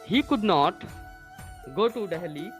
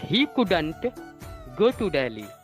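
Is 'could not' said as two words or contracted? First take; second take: two words; contracted. First: Could not is said as two full words. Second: Could not is contracted into one word, couldn't.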